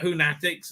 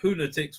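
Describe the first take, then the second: First: The stress is on the second syllable. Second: The stress is on the first syllable. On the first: The speaker calls it wrong. "emphasizing a second Whonatics" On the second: The speaker calls it right. "rhymes with lunatics, not fanatics"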